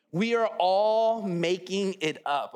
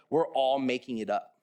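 First: "are" leaned on, slowed and drawn out; slow down and hit "are" to insist; stress on "are". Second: Said in the usual way. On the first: Shown as a demonstration.

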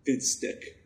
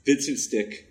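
First: Whispered. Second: Said in the usual way. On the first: Pretend. Trying out a new name.

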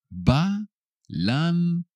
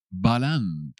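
First: BALANCE split into slow separate syllables, higher; higher, drawn-out teaching take of Balance. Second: Said in the usual way. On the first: Shown as a demonstration. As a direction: sound out Balance with long gaps for learners. Teacher repeats word by syllables.

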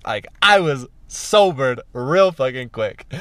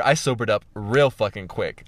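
First: "sobered" punched out slowly after a hanging "was"; slow down and lean hard on "sobered"; emphatic repetition. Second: Said in the usual way. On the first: Real, not acted. Repeats it with heavy emphasis.

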